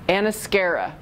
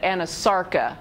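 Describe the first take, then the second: First: The sounds s and c are swapped: anascara. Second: The word is said in full as anasarca. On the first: The speaker calls it wrong. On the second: The speaker calls it right.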